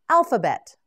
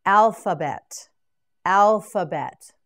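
First: Said in the usual way. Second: Alphabet said slowly and loud, every syllable spelled out; slow model word. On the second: Shown as a demonstration. Teacher drills alphabet for students, slowly. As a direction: draw out alphabet for learners. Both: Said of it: "Now you say it".

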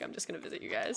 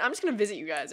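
First: Unvoiced secretive whisper. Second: Said in the usual way. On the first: Shown as a demonstration. Repeats the line in a whisper.

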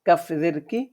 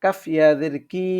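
First: Said in the usual way. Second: Last কি as a long "kee"; one-alif stretch. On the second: Shown as a demonstration. Teacher reading examples to learners, final কি stretched. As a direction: hold the vowel of the final কি. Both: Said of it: "এক আলিফ টানিয়ে পড়বো".

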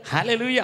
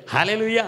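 The two takes are said the same way.

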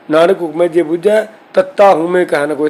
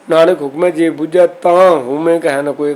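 First: ਤੱਤਾ read out letter by letter as the bare letter name; literal spelled reading. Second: ਤਾਂ said with a long a and a nasal ending; correct nasal reading. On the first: Teacher reading the verse literally to show the mistake, ਤੱਤਾ spelled out. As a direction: say ਤੱਤਾ as written, with no nasal ਤਾਂ. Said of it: "ਇੱਥੇ ਤੱਤਾ ਲਿਖਿਆ". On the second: Teacher showing students the right recitation, nasal ਤਾਂ. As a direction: read ਤਾਂ with the kanna and bindi sounded, nasalised. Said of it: "ਤੱਤੇ ਦੇ ਅੱਗੇ ਕੰਨਾਂ ਬਿੰਦੀ ਉਚਾਰ ਕਰੀਏ". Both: Shown as a demonstration.

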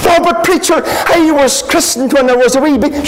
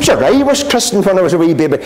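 First: Higher, fast, pleading voice of a churchgoer; protesting churchgoer. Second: Said in the usual way. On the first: Retold or imitated. Churchgoer insisting to the preacher, high and rushed. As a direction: pitch up and rushed, defending his christening.

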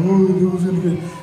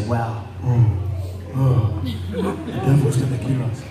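First: Fast, hammed-up frantic babble; mock panic. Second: Low, hammed-up awe and alarm; mock dread. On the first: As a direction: imitate someone running around in alarm. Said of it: "He runs around and saying". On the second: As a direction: imitate worried believers, pitched low. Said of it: "See, some of you say".

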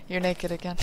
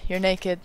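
First: Deadpan and much softer, unimpressed; imitating the unimpressed partner in a flat, quiet voice. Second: Deadpan, softer imitation of the partner; mildly imitated partner, flat and unimpressed. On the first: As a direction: drop it quietly with no excitement. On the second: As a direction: say it totally unimpressed, a bit quieter. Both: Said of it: "in, like, a flat voice".

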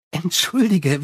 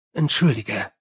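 First: Sally, breezy. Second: Lower, curt Entschuldige; Angua, gruff. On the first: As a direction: toss off Entschuldige like a charming vampire. Sally's apology, vampire voice. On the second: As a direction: bite off Entschuldige low like a werewolf. Angua the werewolf speaks. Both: Acted.

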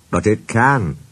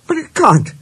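First: Level, firm counter on CAN. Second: High-pitched, disbelieving objection on CAN'T; objecting. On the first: Engine insists the railway can climb, firm. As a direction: contradict firmly without raising the pitch. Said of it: "said Renius firmly". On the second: Engine disputes that a railway climbs mountains, objecting. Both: A narrator's reading.

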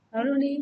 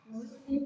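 First: "Nói luôn đi" repeated louder to push the class; louder urging. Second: Said in the usual way. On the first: Real, not acted. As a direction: press the class to answer, louder. Teacher urging pupils to answer. (giục cả lớp trả lời, to hơn)

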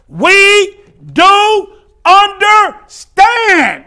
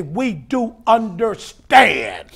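First: Very slow, high shout, word by word; drawn-out shout. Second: Said in the usual way. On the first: Acted. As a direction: belt out each word with long stretches. Same words repeated at full force.

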